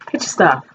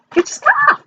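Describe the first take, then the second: First: Said in the usual way. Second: Much higher squeaky mock call. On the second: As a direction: pipe it up high like a nagging call.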